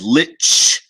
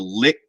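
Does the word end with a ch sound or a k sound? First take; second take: ch sound; k sound. First: The word ends with a soft ch sound. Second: The word ends with a hard k sound. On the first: "the that that lit ch sound" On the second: "as opposed to lick"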